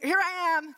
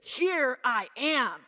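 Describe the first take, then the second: First: It is said lightly, like a casual greeting. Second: It is said slowly and with strong weight. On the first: A casual hello on meeting someone. The speaker calls it wrong. "This is not just hey" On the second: Full attention and readiness to listen. The speaker calls it right. "It is a strong word in Hebrew"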